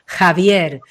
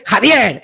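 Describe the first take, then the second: First: Javier said slowly, with pride and enthusiasm; empowered name call. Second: Mock annoyed name. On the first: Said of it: "desde el empoderamiento". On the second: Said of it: "en plan enfadado". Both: Shown as a demonstration.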